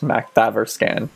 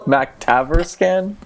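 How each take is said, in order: First: The name is said with a 'th' sound after 'Mac'. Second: The name is said with a plain 't' after 'Mac'. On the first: "I've been pronouncing it the same way as you" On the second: "But I heard someone say"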